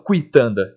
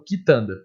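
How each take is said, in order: First: "quitanda" como "cuitanda", com U audível; U sonoro, pronúncia errada. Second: Said in the usual way. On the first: Shown as a demonstration. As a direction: pronuncie o U de "quitanda" depois do K. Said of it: "porque eu não falo quitanda". (diga "quitanda" começando com "cui") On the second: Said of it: "eu falo quitanda".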